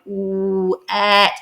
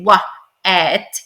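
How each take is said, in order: First: The first sound is a rounded 'ooh' vowel. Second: The first sound is a 'wuh' syllable. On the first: The speaker calls it right. "you're going ooh et" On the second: The speaker calls it wrong. "You don't say what et"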